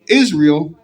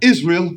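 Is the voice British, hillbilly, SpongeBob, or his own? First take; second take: own; British. First: It is said in his own normal voice. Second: It is said in a British accent.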